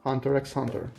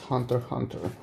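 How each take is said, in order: First: The letter X is spoken between the words. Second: The letter X is left out between words. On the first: The speaker calls it wrong. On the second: The speaker calls it right.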